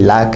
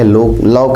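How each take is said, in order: First: The vowel is an open 'ah' sound. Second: The vowel is a rounded 'aw' sound. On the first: "लाक है" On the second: "लॉक नहीं"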